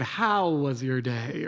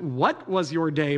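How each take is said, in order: First: Slow 'How was your day?' with a rise on 'How'; slow, pointed 'How was your day?' as the right question; stress on how. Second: Slow, leaning on 'What was your day?' as the wrong question; slowed 'What was your day?' marked as the wrong take; stress on what. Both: Shown as a demonstration. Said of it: "The question wasn't, 'What was your day?' but, 'How was your day?'".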